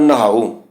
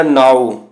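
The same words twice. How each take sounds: First: ਨਹਾਓ with a breath of h after the n; half-h pronunciation. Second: Said in the usual way. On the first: Shown as a demonstration. Teacher reciting the verse about bathing, half-h pronunciation. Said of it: "ਅਸੀਂ ਅਧਿਹਾ ਦੀ ਆਵਾਜ਼ ਕੱਢਣੀ ਹੈ". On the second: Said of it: "ਇੱਥੇ ਲਿਖਿਆ ਨਾਓ".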